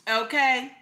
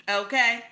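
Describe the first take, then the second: Both takes have the same delivery.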